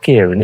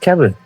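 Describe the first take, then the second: First: The first vowel sounds like 'ear'. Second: The first vowel sounds like 'air'. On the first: The speaker calls it wrong. "It's not Kieran" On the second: The speaker calls it right. "it's Keren"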